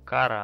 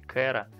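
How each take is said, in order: First: The first vowel sounds like 'a'. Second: The first vowel sounds like 'e'. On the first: This form matches an existing word with an unpleasant meaning. "у нас имя ее, ну, как бы, Кара" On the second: This is the form used in the dubbed version. "в нашей русской озвучке Кэра"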